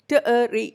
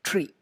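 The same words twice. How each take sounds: First: "tree" split into separate sounds t, uh, ree; tree broken up. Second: Said in the usual way. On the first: Shown as a demonstration. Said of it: "അങ്ങനെയൊന്നുമല്ല പറയുന്നത്". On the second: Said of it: "You just say it as".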